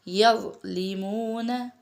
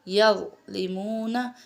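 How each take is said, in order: Both takes have the same delivery.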